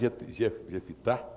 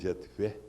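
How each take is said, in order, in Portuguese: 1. O nome tem três sílabas, com uma vogal entre o f e o t. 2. O nome tem duas sílabas, sem vogal entre o f e o t. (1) "Um fala Jefitá" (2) "o outro pronuncia Jefté"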